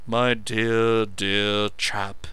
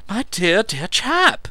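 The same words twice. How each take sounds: First: Mocking imitation of an effusive friend; vicious mimicry. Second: Effusive. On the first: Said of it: "unable to keep himself from vicious mimicry". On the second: Meadows effusive. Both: A narrator's reading.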